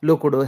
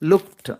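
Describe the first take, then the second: First: The word ends with a d sound. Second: The word ends with a t sound. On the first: The speaker calls it wrong. "అన్నీ కూడా డి ఇచ్చేస్తున్నాం" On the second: The speaker calls it right. "ఇవన్నీ కూడా టీతో end అవుతాయండి"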